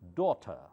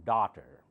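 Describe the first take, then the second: First: British accent, with the final R left silent. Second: American accent, with a more open vowel. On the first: "How do you say that in British English? ... last R is not pronounced" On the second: "Americans say it more open"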